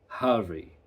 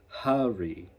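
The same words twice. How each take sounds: No difference in how they are said.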